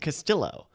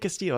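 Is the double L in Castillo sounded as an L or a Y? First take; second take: L; Y. First: The double L is sounded like an L. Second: The double L is sounded like a Y. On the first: The speaker calls it wrong. "she keeps saying Castillo" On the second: The speaker calls it right. "I make a point of saying Castillo"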